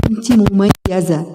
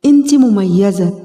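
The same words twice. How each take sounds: First: مميزة leaned on slowly with a falling close; slow, with the weight landing on مميزة; stress on مميزة. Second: انت pushed forward, slow and falling; slow, with انت hit first; stress on انت. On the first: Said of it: "repeats the phrase for emphasis". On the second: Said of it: "repeats the phrase with the stress moved". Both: Shown as a demonstration.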